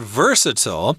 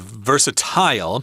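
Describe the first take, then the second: First: It is said with an American pronunciation. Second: It is said with a British pronunciation.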